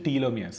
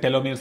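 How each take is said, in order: First: The first syllable has a long 'tee' sound. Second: The first syllable has a short 'te' sound. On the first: The speaker calls it right. "Real pronunciation వచ్చి టీలోమియర్స్" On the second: The speaker calls it wrong. "మామూలుగా సడన్గా పేరు చూస్తే టెలోమియర్స్ అని పలకాలనిపిస్తుంది"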